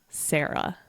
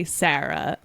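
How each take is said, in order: First: Sarah rhyming with "Kara", as SAIR-uh; other people's pronunciation. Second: Sarah with a flat A as in "cat"; East Coast pronunciation. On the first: Showing how others say the name, "air" pronunciation. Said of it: "other people say Sarah". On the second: Showing how we say the name, flat-A pronunciation. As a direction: say Sarah with short, open A. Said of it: "We say Sarah". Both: Shown as a demonstration.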